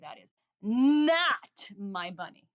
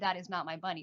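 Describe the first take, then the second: First: One word is said with extra energy. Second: All words are said evenly, without extra energy. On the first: The speaker calls it right. "with a little extra energy" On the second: The speaker calls it wrong. "you don't just say"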